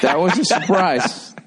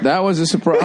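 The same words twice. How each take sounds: First: Slow, drawn-out That was a surprise; dry mock-solemn repeat; slow deadpan. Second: Said through a laugh; light laughing echo; amused repeat. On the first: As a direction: lay each word down slowly. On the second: Pretend. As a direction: chuckle the line back.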